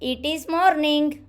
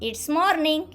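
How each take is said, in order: First: It is said as two full words. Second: It is said as one short contracted syllable. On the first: The speaker calls it wrong. "But don't say like that" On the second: The speaker calls it right. "It's morning like this"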